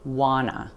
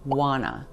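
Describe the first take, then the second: First: The T sounds disappear, giving 'wanna'. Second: The T sounds disappear, giving 'wanna'.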